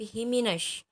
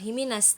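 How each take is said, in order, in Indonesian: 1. Kata itu diakhiri dengan bunyi sh. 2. Kata itu diakhiri dengan bunyi s biasa. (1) "Ini shin" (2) "bukan sin biasa. Jadi bukan himinas"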